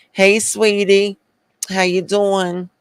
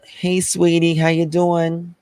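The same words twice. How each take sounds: First: High, drawn-out Southern greeting with a Northern tinge; high-pitched mock Southern accent, partly Northern; Southern-Northern accent mix. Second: High, sugary Southern greeting; put-on Southern accent, pitched up high. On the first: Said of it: "did a Northern accent with a Southern accent". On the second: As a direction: greet them like a Southern sweetie. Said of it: "in the South, we always say". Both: Shown as a demonstration.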